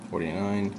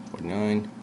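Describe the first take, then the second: No difference in how they are said.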